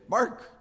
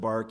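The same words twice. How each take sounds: First: The word is said with strong, forceful emphasis. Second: The word is said softly and calmly. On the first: It refers to the sound a dog makes. "I could put a little emphasis on the word bark and say" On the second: It refers to the outer covering of trees. "If I was a little more calm"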